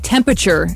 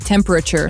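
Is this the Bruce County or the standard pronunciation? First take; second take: Bruce County; standard. First: It is said with the local Bruce County pronunciation. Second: It is said with the standard pronunciation. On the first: The speaker calls it wrong. "I recognize a good Bruce County accent" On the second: The speaker calls it right. "instead of temperature"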